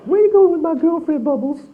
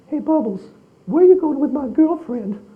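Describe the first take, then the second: First: Much higher, louder falsetto echo of Michael; repeating [name]'s line. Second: Much higher, airy falsetto impression of Michael; imitating [name]. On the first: Retold or imitated. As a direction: quote him back in that high, playful voice, amazed. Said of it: "looked at each other going". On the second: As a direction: play it as Michael's high, playful voice teasing the chimp. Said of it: "he goes".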